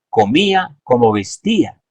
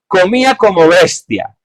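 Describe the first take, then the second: First: The word after como is stressed on its second syllable. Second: The word after como is stressed on its first syllable. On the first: He ate as modestly as he dressed. The speaker calls it right. "el texto era este" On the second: He ate like a beast. The speaker calls it wrong. "alguien que lo leyó mal"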